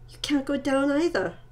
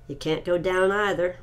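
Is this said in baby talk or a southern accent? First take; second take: baby talk; southern accent. First: It is spoken in a childlike baby-talk voice. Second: It is spoken in a southern American accent. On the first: "I'll do baby talk" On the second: "See, that's more of a southern accent"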